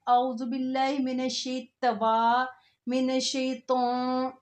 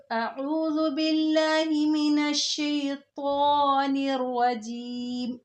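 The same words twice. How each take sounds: First: "शैतवा" said with a wrong 'tawa' sound; mock wrong reading. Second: "शैतानिर" with a heavy full t, slow and held; correct recitation. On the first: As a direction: imitate people saying "शैतवा". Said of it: "कहते हैं". (गलत उच्चारण की नकल) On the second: Shown as a demonstration. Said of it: "इसको सिर्फ मोटा करना है". (सही: मोटा "ता" के साथ)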